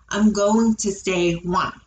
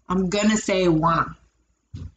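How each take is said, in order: First: 'Going to' is said in full. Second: 'Going to' is reduced to 'gonna'.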